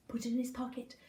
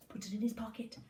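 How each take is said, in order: Both takes have the same delivery.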